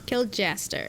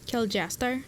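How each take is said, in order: First: It is said in the speaker's normal accent. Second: It is said in an attempted Scottish accent.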